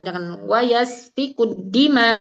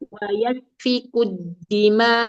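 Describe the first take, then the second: First: The phrase is pressed out with force. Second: The phrase is said lightly without pressing. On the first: The speaker calls it wrong. "jangan ditekan" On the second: The speaker calls it right. "Sempurnakan saja"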